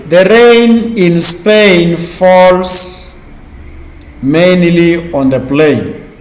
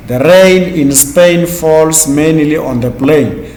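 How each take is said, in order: First: Very slow, drawn-out vowels in "rain", "Spain", "mainly", "plain"; slow teaching read drawing out each long A; stretching the A sounds. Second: Said in the usual way. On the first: Shown as a demonstration. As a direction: lean into every "ai" in "The rain in Spain". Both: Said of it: "We have the word A, A, A".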